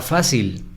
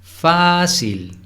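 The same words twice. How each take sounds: First: Said in the usual way. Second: "Fácil" with FÁ held long and pitched high; stress on first syllable. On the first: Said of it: "la palabra fácil". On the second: Shown as a demonstration. Teacher showing the tonic syllable, first one stretched. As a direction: lean hard on FÁ in "Fácil", then drop. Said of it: "La sílaba tónica es la primera".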